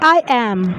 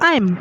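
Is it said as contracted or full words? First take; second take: full; contracted. First: It is said as two full words. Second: It is said as one contracted syllable. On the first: "it's the whole word" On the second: "it's a contracted form"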